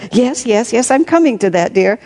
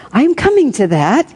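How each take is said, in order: First: Higher, hurried placating; hasty assurance. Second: Higher, louder assurance; reassuring philosopher. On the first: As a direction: rush to calm her, pitched up. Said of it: "he assured her hastily". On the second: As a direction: placate her in a raised voice. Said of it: "he assured her". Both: A narrator's reading.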